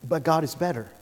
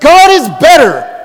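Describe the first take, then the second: First: It is said calmly, without extra energy. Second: It is said with passion and energy.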